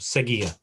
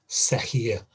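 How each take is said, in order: First: The middle consonant is a hard g sound. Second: The middle consonant is a breathy h sound. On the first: The speaker calls it right. "it just hardens the G" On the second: The speaker calls it wrong. "otherwise it would be seguir"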